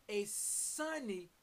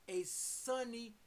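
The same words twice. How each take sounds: No difference in how they are said.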